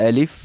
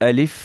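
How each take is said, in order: The two takes are said the same way.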